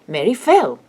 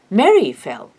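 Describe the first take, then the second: First: The stress falls on the word fell. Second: The stress falls on the word Mary. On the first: What happened to Mary is the new information. The speaker calls it right. "English marks new information with an emphatic intonation" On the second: Someone fell, and the new information is who. The speaker calls it wrong. "This intonation pattern in English means that Mary is new information"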